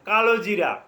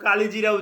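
First: The second syllable has an 'o' vowel. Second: The second syllable has an 'i' vowel. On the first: "কালোজিরা উচ্চারণ করতে পারেন" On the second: "কেউ কালিজিরা উচ্চারণ করে"

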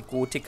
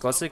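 First: The word is pronounced with German sounds. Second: The word is pronounced with English sounds. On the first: The speaker calls it right. "es ist ein deutscher Entwickler, also müsste es normalerweise Gothic heißen" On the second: The speaker calls it wrong. "weil Gothic wird ja Englisch ausgesprochen"

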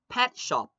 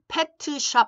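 First: It is said with an English-like pronunciation. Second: It is said without an English-like pronunciation. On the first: The speaker calls it right. "발음을 예쁘게, 영어스럽게" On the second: The speaker calls it wrong. "pet shop 하면 안 돼요"

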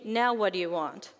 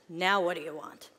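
First: It is said in a plain, neutral voice. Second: It is said in an angry New York accent.

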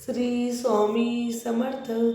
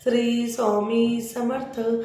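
No difference in how they are said.

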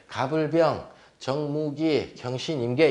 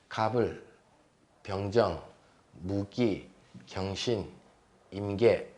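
First: A pause splits 병 from 정, joined to 무기. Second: Syllables are grouped in pairs, 병정 kept together. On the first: The speaker calls it wrong. "이상하게 나눠 갖다 붙이면 이제 공부하는데 나중에 헷갈린다" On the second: The speaker calls it right. "2글자씩 끊어봅니다"

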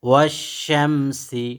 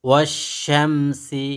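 The two takes are said the same way.

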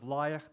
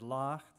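First: The vowel is an 'eye' sound. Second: The vowel is an 'ah' sound. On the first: This is the everyday form, not the theater dialect. "instead of leicht" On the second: This is the Yiddish theater dialect form. "they said lacht"

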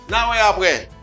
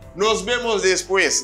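First: The words are run together and clipped short. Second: Every sound of the words is said in full. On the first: This is how native speakers say it. The speaker calls it right. "Ça c'est natif yo" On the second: Native speakers do not say it this way. The speaker calls it wrong. "Yo pas prononcer comme ça"

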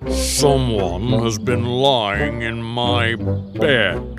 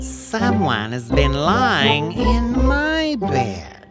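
First: It is said in a great big voice. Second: It is said in a middle-sized voice.

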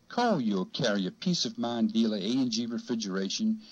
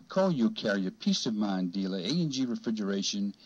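No difference in how they are said.

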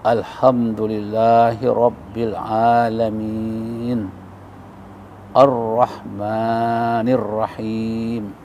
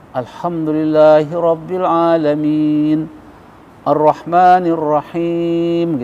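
First: It is recited slowly and deliberately. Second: It is recited at a moderate pace.

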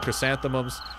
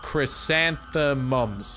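First: The word is said quickly and stumbled over. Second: The word is said slowly and carefully. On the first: The speaker calls it wrong. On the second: The speaker calls it right. "Pronouncing it right. Just got to really, you know, take your time"

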